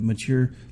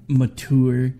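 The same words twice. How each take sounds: First: It is pronounced in an ordinary, everyday way. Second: It is pronounced in a fancy, highbrow way. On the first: The speaker calls it right. "instead of" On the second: The speaker calls it wrong. "make it sound like it's some highbrow word"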